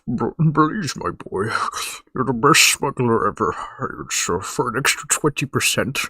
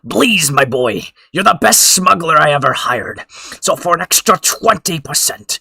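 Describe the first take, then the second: First: It is said in a Jabba the Hutt voice. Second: It is said in his normal voice.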